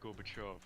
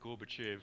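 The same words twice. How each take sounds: First: The last vowel sounds like O. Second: The last vowel sounds like E. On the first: The speaker calls it right. "it's pronounced as an O" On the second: The speaker calls it wrong. "it isn't"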